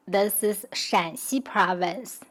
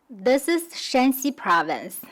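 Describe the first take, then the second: First: Mandarin third tone on Shan in "Shanxi". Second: Mandarin first tone on Shan in "Shanxi". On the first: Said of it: "the third accent is this province". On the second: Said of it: "the first accent is that province". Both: Shown as a demonstration.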